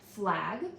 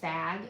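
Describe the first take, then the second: First: An l sound follows the f. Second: No consonant follows the f. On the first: The speaker calls it right. "the f is a cluster" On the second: The speaker calls it wrong. "completely leave out the L"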